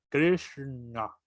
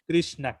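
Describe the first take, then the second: First: The sh and n are retroflex, tongue curled back. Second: The sh and n are plain, as in Spanish. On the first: "la N es más, eh, es más, como dice, es cerebral, es, viene desde la garganta" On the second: "Nosotros normalmente pronunciamos Krishna, Krishna, Krishna, como nos da, ahora sí que el español"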